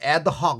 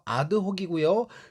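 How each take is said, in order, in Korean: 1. 영어식 느낌으로 발음합니다. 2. 철자대로 발음합니다. 'ahd-hok'처럼요. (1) "발음은 그냥 영어식으로 adhoc 이렇게 발음하는 경우 굉장히 많거든요" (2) "그대로 발음하셔야 돼요"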